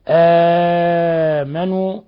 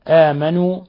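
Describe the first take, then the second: First: The opening long vowel is held moderately long. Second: The opening long vowel is held briefly. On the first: "التوسط" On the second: "القصر"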